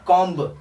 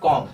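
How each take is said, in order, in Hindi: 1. अंतिम b ध्वनि उच्चारित होती है। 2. अंतिम b ध्वनि मूक है। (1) "ना कि कॉम्ब" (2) "इसमें बी नहीं पढ़ा जा रहा है, इसलिए इसे सिर्फ कॉम्ब कहेंगे"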